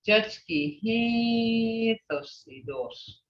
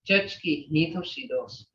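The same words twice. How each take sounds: First: It is said with an added, marked tone. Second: It is said in a plain statement tone. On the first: The mother is beautiful. "you can put a tone to that and change the meaning. ... Hear that tone?" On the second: The mother is pretty. "You're making a statement"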